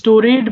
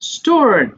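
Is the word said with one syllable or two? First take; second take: two; one. First: The ending is said as a separate syllable. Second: The ending joins the word as one syllable. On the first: The speaker calls it wrong. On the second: The speaker calls it right.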